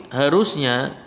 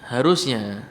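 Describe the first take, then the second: The two takes are said the same way.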